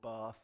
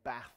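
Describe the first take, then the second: First: The A vowel is long. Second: The A vowel is short.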